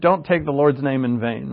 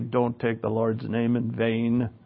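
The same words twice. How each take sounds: First: It is said in his own plain accent. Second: It is said in a light Irish accent.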